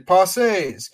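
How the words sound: The word has a French pronunciation. It sounds pretentious. "I don't want to be pretentious and say Pensées"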